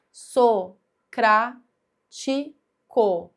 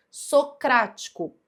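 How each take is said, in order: First: "socrático" very slowly, each syllable standing alone. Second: Said in the usual way. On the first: Shown as a demonstration. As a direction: count out "socrático" with a pause between syllables. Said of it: "vai sempre contar a sílaba". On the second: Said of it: "Última, penúltima, antepenúltima".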